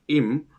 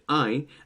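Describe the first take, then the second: First: The vowel stays a steady 'ee' before m. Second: The vowel glides like a nasal 'ay' sound. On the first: The speaker calls it wrong. "We don't pronounce it im" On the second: The speaker calls it right. "We pronounce it I"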